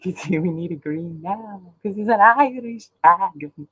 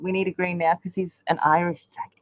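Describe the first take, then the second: First: Put-on broad Aussie bogan accent; hammed-up Australian bogan voice. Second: Said in the usual way. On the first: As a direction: put on a jokey bogan twang. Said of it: "except for Bogan". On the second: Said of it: "I can't do the Irish brogue".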